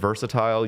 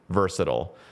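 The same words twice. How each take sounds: First: The word is said in a British-style way. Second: The word is said in an American way. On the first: "I say so many things in the European way" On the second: "That's actually how you're supposed to say it in America"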